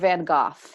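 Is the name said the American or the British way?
British. The name is said the British way.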